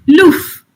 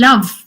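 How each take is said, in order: First: The vowel sounds like 'oo', Yorkshire style. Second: The vowel is the standard English 'uh'.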